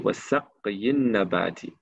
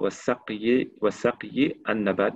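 First: The last word ends on a vowel. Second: The last word ends on a consonant. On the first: The speaker calls it right. "on dit" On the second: The speaker calls it wrong. "on ne dit pas"

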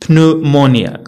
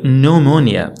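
First: The word begins with a P sound. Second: The word begins with an N sound. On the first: The speaker calls it wrong. "ما كنقولوش بنومونيا" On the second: The speaker calls it right. "كنقولو نومونيا"

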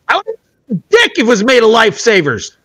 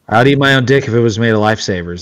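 First: It is said in an angry tone. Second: It is said in a calm, casual tone.

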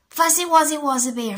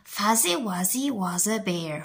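First: It is said at a faster pace. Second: It is said at a slower pace.

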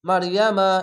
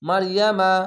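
No difference in how they are said.

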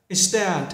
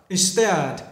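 Both takes have the same delivery.

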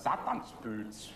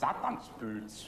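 First: The word is said with a Viennese accent. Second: The word is said with a Viennese accent.

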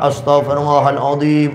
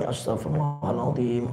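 First: The phrase is said aloud, loudly. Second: The phrase is said softly, quietly. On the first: "kalau zikir itu dengan jahar, dengan diucapkan" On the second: "kalau sir, kalau dipelankan"

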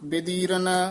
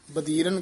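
First: The first syllable has an 'i' vowel. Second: The first syllable has an 'a' vowel. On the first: The speaker calls it right. "ਬੱਬੇ ਦੀ ਸਿਹਾਰੀ ਵੀ ਲਾਉਣੀ ਹੈ" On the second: The speaker calls it wrong. "ਆਮ ਇਹਦੀ ਨਾ ਸਿਹਾਰੀ ਛੱਡ ਜਾਂਦੇ ਹਨ, ਬਦੀਰਨ ਕਹਿ ਜਾਂਦੇ ਨੇ"

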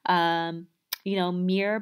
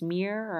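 First: The word is said with two syllables. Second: The word is said with one syllable. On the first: This is the standard pronunciation. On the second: This is the Baltimore pronunciation.

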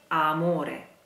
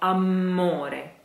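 First: The m sound is short and single. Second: The m sound is held long and doubled. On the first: The speaker calls it right. "It is amore" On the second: The speaker calls it wrong. "please don't say the double M here. It's not amore"

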